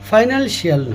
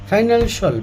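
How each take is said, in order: First: The ending is said as 'shee-ul'. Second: The ending is said as 'shul'. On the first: The speaker calls it wrong. "হবে না" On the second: The speaker calls it right. "এটা ফাইনালশল"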